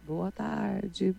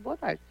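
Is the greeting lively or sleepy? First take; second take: sleepy; lively. First: It is said quietly in a sleepy way. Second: It is shouted in a lively, cheerful way.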